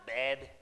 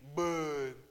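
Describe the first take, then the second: First: The vowel is not a deep U sound. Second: The vowel is a deep U sound. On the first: The speaker calls it wrong. "It's not Bed" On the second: The speaker calls it right. "It's Bud"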